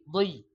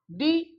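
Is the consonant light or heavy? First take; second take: heavy; light. First: The consonant is heavy and thick. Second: The consonant is light and thin. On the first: "tebalnya di dot" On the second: "Tipisnya di dal"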